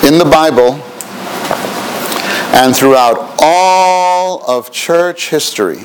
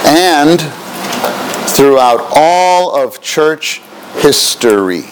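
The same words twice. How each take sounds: First: Dictating. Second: Slow, word by word dictation; dictating. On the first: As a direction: dictate each word clearly. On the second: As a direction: spell it out slowly for note takers. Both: Shown as a demonstration. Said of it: "Please write that".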